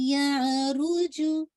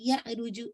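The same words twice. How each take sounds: First: The 'ya' sound flows smoothly without a jerk. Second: The 'ya' sound is given a sudden jerk. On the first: The speaker calls it right. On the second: The speaker calls it wrong.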